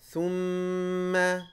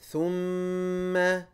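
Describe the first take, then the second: Both takes have the same delivery.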